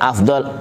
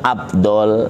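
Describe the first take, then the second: First: The middle consonant is a breathy f sound. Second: The middle consonant is a b sound. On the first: The speaker calls it right. "yang benar af" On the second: The speaker calls it wrong. "kan ada kan baca abdol"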